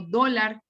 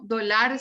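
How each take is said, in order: First: "dólar" stressed on DÓ, DÓ-lar; stress on first syllable. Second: "dólar" wrongly stressed on the end, do-LAR; wrong final stress. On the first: Teacher gives students the correction, "dólar" stressed as DÓ-lar. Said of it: "sino dólar". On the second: Teacher shows students the wrong way, "dólar" stressed as do-LAR. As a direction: shift the weight of "dólar" to the last syllable. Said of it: "como no digo dólar". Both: Shown as a demonstration.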